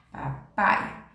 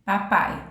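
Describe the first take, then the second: First: Breathy whisper of papai. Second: Said in the usual way. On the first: Shown as a demonstration. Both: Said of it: "Aqui, ó".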